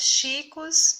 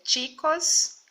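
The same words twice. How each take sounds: First: The first sound is not a tch sound. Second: The first sound is a tch sound. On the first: The speaker calls it wrong. "Só que a pronúncia não é assim" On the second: The speaker calls it right. "A pronúncia é chicos"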